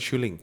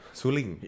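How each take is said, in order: First: The word begins with an sh sound. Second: The word begins with a plain s sound. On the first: The speaker calls it wrong. "bukan shuling" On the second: The speaker calls it right.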